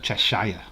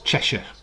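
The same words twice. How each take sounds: First: The last syllable is a full 'shire' sound. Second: The last syllable is reduced to a short 'shuh'. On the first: The speaker calls it wrong. "not Cheshire" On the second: The speaker calls it right. "So it's Cheshire"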